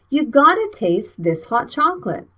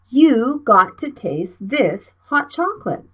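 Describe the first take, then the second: First: Got to is reduced and linked into gotta. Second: Got to is said as two full words. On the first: "How can we speak it like a native speaker?" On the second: "the full sentence is"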